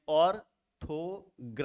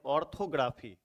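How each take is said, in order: First: orthography in four separate beats, ऑर, थो, ग्रा, फी; split into syllables. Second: Said in the usual way. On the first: Shown as a demonstration. Teacher having made four segments, orthography syllable by syllable. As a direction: chop orthography into four parts with pauses between. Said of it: "चार शब्द खंड इसको कर दिए". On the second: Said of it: "इसका उदाहरण यहाँ पे भी हम ले लेते हैं".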